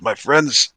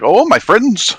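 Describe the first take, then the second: First: It is said in the speaker's normal voice. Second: It is said in Harshnag's put-on voice.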